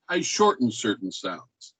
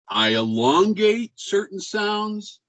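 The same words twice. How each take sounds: First: "shorten certain sounds" kept short and lower. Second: "elongate" stretched out slow and high; elongated sounds. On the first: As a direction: cut "shorten" short, dropping the pitch. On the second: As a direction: draw out the long vowels in "elongate certain sounds". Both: Shown as a demonstration.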